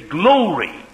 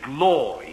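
First: Durham accent, with a longer O and weaker R. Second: Standard British accent, with a shorter O sound. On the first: The speaker calls it wrong. "They get more of the O and less of the R" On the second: The speaker calls it right. "the authentic Queen's English Oxford Dictionary way of saying glory"

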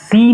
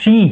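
First: The word begins with an s sound. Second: The word begins with an sh sound. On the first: The speaker calls it wrong. "આ સી નથી" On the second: The speaker calls it right. "આ શી છે"

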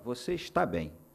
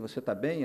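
First: It is a statement, falling at the end. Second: It is a question, rising at the end.

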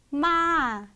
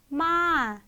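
First: The pitch rises and then falls. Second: The pitch rises and then falls.

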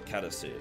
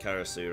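First: It is said with a Japanese accent. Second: It is said with an English accent. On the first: "if I was gonna pronounce it like in a Japanese style" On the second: "I'll just read it in like English"

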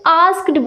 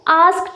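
First: The word ends with a d sound. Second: The word ends with a t sound. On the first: The speaker calls it wrong. "क्योंकि हम इसकी spellings पे जाते हैं, जो सुनने में भी उतना अच्छा नहीं लगता" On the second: The speaker calls it right. "जो डी है वो टी में क्या हो जाता है? कन्वर्ट हो जाता है"

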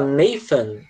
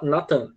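First: The middle consonant is an f sound. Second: The middle consonant is a plain t sound. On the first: Listeners understand it but find it odd. "Se você falar Nathan com F" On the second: This is how Portuguese speakers say it. "em português a gente fala Nathan"

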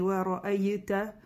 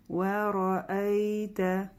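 First: The 'ay' sound is harsh and strongly pressed. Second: The 'ay' sound is soft and held slightly. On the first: The speaker calls it wrong. "не" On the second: The speaker calls it right. "мы придерживаем чуть-чуть на я"

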